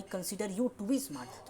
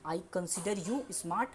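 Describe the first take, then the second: First: Very slow, softer full form; slow model sentence. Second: Slow short English example; slow model sentence. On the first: Teacher contrasting the form with to be. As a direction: lay out each word slowly. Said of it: "इस तरह से बोल सकते हो". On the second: Teacher contrasting two example forms. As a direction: say it slowly. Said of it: "example देते हैं". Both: Shown as a demonstration.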